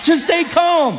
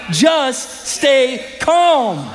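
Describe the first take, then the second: First: Shouted calm. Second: Stretched out very slowly; slow calm. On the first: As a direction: fire it back at the crowd. Preacher repeating verse as shout. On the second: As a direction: let every word linger, soothing. Preacher drawing out the verse. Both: Acted.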